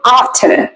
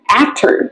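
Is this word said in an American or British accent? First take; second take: British; American. First: It is said in a British accent. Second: It is said in an American accent. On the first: "còn tiếng Anh sẽ là after" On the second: "Trong tiếng Anh Mỹ sẽ được đọc là after"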